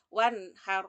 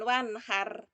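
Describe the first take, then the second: First: The r sound is thick and heavy. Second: The r sound is thin and light. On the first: The speaker calls it right. "pakai roknya agak tebal" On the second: The speaker calls it wrong. "bukan wanhar, bukan begitu"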